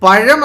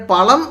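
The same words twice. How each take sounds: First: "പഴം" with the curled Malayalam ഴ (zh); correct zh sound. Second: "പളം" with a hard retroflex ള (l) in place of zh; wrong l sound. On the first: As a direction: say "പഴം" with a retroflex zh, not an l. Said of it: "പഴം എന്നാണ് വായിക്കുന്നത്". ("പഴം" എന്നതിൽ ഴ വ്യക്തമായി ഉച്ചരിക്കുക) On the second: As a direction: mispronounce pazham as "പളം", with an l. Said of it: "എന്നല്ല നമ്മൾ പറയുന്നത്". ("പളം" എന്ന് ഴ-യ്ക്ക് പകരം ള ചേർത്ത് പറയുക) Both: Shown as a demonstration.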